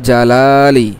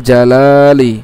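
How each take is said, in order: No difference in how they are said.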